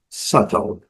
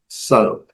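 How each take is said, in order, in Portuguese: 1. O T do meio é um T claro e nítido. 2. O T do meio é um tepe rápido. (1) "No inglês britânico, a letra T ela é bem característica" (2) "a pronúncia mais americanizada"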